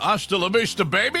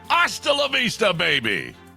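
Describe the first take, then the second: First: It is said plainly, without much feeling. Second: It is said with much more feeling.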